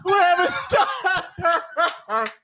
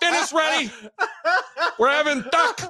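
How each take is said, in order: First: High, slow, laughing mom. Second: Put-on mom calling kids. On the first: Pretend. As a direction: stretch it out while laughing. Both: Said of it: "the Raiola mom calling him for dinner".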